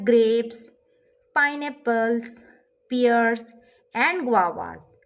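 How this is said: Short soft pauses separate each word. The speaker calls it right. "मैं थोड़ा सा ठहर गई हूँ"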